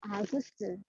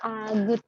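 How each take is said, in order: First: The name ends with an s sound. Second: The name ends with a t sound. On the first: The speaker calls it right. "Kalau mau nulis nama Agus harus Agus harus begini" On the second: The speaker calls it wrong. "huruf tir di bawah itu terakhir dibaca T, jadi bacanya Agut"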